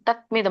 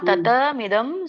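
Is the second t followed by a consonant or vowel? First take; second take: consonant; vowel. First: The second t joins the m directly. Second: A vowel separates the second t from m. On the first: The speaker calls it wrong. "ಅಲ್ಲಿ ವ್ಯಂಜನ ಇಲ್ಲ" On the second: The speaker calls it right. "ತತ ಅಂತ ಇದೆ"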